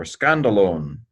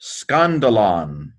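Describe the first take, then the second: First: SCANDALONE with a long final O; long-o ending. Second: SCANDALON with an open final O, slowly; short-o ending. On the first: Teacher offering students the other reading, long-o ending on SCANDALONE. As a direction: end SCANDALONE like "lone". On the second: Teacher sounding out the word for students, open-vowel ending on SCANDALON. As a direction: draw out SCANDALON, ending like "lawn". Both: Shown as a demonstration. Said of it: "or scandalone".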